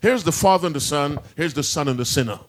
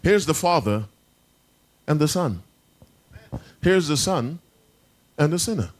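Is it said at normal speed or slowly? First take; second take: normal speed; slowly. First: It is said at normal speed. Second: It is said slowly.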